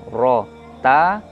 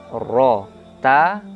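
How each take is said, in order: No difference in how they are said.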